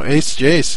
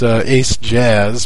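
First: The second word is said like 'jace'. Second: The second word is said like 'jazz'. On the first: The speaker calls it right. "but no, Ace Jace" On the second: The speaker calls it wrong. "If you want to pronounce it wrong and invoke his wrath, it's Ace Jazz"

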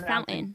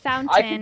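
First: The middle T is dropped. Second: The middle T is clearly pronounced. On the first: "it's fountain" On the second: "It's not fountain"

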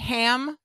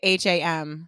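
First: It is said as one single word. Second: It is spelled out letter by letter. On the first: "Do you say ham?" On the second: "Or do you say H-A-M?"

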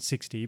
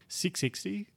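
First: It is said as plain sixty. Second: It is said as six then ixty. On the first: This is the pronunciation the organisers intend. "I think they want us to pronounce it 60" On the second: This reads the written six and ixty separately. "other people are pronouncing it 660 because the 6 then the IXTY"

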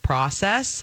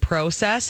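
First: It is said with a common American pronunciation. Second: It is said with a Canadian pronunciation.

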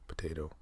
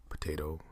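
The two takes are said the same way.

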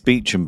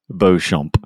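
First: The name is said as 'Beecham'. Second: The name is said following its French spelling. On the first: The speaker calls it right. "It's Beecham, by the way" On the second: The speaker calls it wrong. "Thinking I was being ever so correct"

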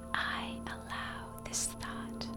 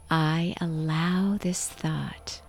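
First: It is whispered without a voiced tone. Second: It is said loudly with full engaged voice. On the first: "whisper the affirmation" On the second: "So out loud, really engage yourself"

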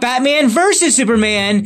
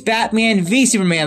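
First: The middle word is the full word versus. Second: The middle word is the single letter V. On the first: The speaker calls it wrong. "It's not Batman versus Superman" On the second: The speaker calls it right. "it's Batman v Superman, like a court case"

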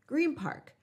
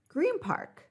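First: Green ends in an m-like sound. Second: The same.

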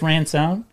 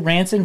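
First: The stress falls on the second syllable. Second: The stress falls on the first syllable. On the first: The speaker calls it wrong. "We put the wrong emphasis on the wrong syllable" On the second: The speaker calls it right. "your last name was actually Ranson"

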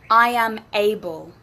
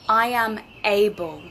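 No difference in how they are said.

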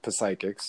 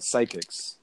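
First: The word starts with a pronounced P. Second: The word starts with a silent P.

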